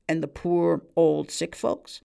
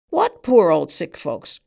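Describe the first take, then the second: First: Said in the usual way. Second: Loud, slow outcry of disbelief; cried out. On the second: A narrator's reading. Man on the stool crying out at the barman, loud and slow. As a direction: cry it out, dismissing the question. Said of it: "cried the man on the stool".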